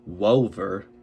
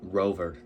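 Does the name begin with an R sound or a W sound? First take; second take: W sound; R sound. First: The name begins with a W sound. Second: The name begins with an R sound. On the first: The speaker calls it wrong. "not like Wover" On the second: The speaker calls it right.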